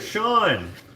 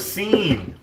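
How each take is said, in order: First: The name is said like "Shawn". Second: The name is said like "Seen". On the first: The speaker calls it right. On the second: The speaker calls it wrong.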